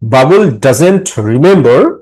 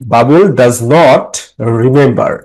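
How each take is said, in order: First: The verb is said as one contracted word. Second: The verb is said as two full words. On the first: "এটা কি ডাজেন্ট" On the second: "আমি প্রনাউন্সিয়েট করলাম full form"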